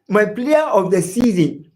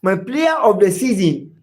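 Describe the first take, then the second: No difference in how they are said.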